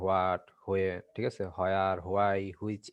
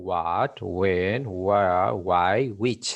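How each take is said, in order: First: What, when, where, why, which said the usual local way, with W; the wrong way they teach at home; wrong pronunciation. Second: What, when, where, why, which said cleanly, W dropped; the right version, every word spoken apart; correct pronunciation. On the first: Teacher imitates how schools mispronounce the question words. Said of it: "This is totally wrong pronunciation". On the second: Teacher corrects the class after showing the wrong version. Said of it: "The correct pronunciation will be". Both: Shown as a demonstration.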